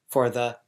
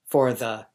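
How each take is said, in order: Both takes have the same delivery.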